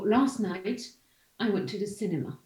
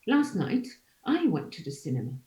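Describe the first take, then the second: First: The main stress falls on the word cinema. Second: The main stress falls on the word I. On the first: It is a plain statement with no contrast. "it's a neutral context here. ... So my nucleus is cinema" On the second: It corrects a claim that someone else went. "But in a non-neutral context, it, it can be any syllable"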